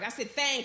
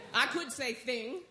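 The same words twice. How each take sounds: First: "thing" said as "thang"; colloquial "thing". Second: "thing" with a short i, as in "sing"; standard "thing". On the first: Preacher defending that word to the church, "thing" pronounced "thang". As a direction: give "thing" a down-home "thang" vowel. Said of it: "language up in here that's not right". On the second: Preacher showing the proper word, "thing" with a short i. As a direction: say "thing" slowly and properly, not "thang". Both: Shown as a demonstration.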